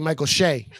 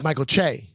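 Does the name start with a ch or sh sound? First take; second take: sh; ch. First: The last name begins with an sh sound. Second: The last name begins with a ch sound. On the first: This imitates how someone else says it. The speaker calls it wrong. "But you say" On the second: This is how the name really goes. The speaker calls it right.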